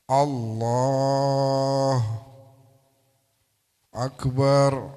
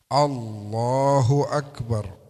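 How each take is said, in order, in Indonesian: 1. Ada jeda di antara kedua kata itu. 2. Kedua kata itu menyambung tanpa jeda. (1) "Nggak boleh kasih jeda antara Allah dan akbar"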